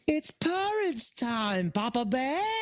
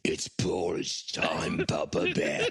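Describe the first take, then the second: First: It is said in a friendly way. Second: It is said in a scary way.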